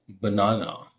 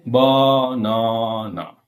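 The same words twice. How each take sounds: First: Said in the usual way. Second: BANANA slowly stretched, each of its three syllables given the same weight; every syllable equal. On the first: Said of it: "You say banana". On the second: Shown as a demonstration. Teacher warning learners against equal stress, BANANA in drawn-out even syllables. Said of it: "Don't you say banana".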